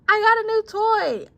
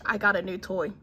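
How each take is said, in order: First: It is said with excitement. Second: It is said as a plain statement.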